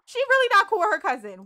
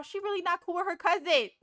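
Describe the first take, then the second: First: Louder and quicker, REALLY pushed hard; louder, faster repeat. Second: Said in the usual way. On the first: Real, not acted. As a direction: say it again, louder and exasperated. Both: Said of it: "repeated louder".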